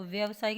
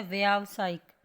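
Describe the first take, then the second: First: व्यावसायिक as vyav-saik, short first vowel; wrong short vowel. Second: व्यावसायिक as vyaav-saik, louder, first vowel drawn long; correct long aa. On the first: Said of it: "व्यावसायिक नहीं होता". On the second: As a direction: open व्यावसायिक loudly on a long aa. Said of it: "क्या होता है". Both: Shown as a demonstration.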